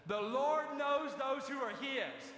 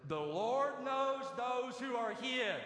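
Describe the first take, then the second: First: Slower, heavier, stressing Lord; emphatic repeat for the congregation. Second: Slow, weighty preacher's emphasis on every word; higher, slow proclaiming; slow emphatic quote. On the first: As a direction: drive the line home again, stressing Lord. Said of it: "Y'all aren't with me". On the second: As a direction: lean on each word, The Lord knows. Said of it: "Y'all, are y'all with me?". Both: Shown as a demonstration.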